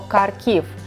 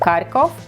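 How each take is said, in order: First: The last syllable has an 'i' sound. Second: The last syllable has an 'o' sound. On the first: This is the official Ukrainian form of the name. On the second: This is the Russian form of the name.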